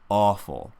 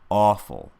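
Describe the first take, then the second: No difference in how they are said.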